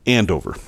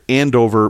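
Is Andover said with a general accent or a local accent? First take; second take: local; general. First: It is said in the local Massachusetts accent. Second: It is said without the local accent. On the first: "I'm going to use the local pronunciation here" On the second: "not using the accent"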